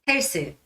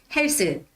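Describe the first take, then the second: No difference in how they are said.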